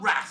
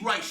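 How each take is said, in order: First: The name is said to rhyme with jazz. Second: The name is said not rhyming with jazz. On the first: The speaker calls it wrong. "it's not Raz, is it? They were calling him Raz" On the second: The speaker calls it right. "That's how you say it"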